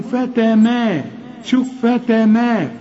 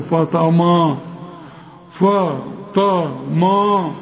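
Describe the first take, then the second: First: فتما slow and higher, thin light a; light letters. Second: فطما with every a thick and dark; wrong heavy version. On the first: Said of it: "لكن الحروف كلها مرققة". (فتما بترقيق الحروف) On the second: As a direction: imitate the error, فطما slow and heavy. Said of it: "فتماروا خطأ". (فطما بتفخيم كل الحروف غلط) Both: Shown as a demonstration.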